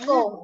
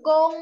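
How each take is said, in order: First: The syllable is said in tone three. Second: The syllable is said in tone one. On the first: "เสียงสาม" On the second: "เสียงหนึ่ง"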